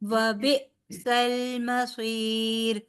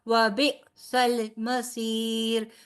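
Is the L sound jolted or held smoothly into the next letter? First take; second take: smooth; jolted. First: The L glides smoothly into the M without a jolt. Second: The L is released with a sudden jolt before M. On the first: The speaker calls it right. "लाम को झटका नहीं देना" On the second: The speaker calls it wrong. "ऐसे नहीं पढ़ना"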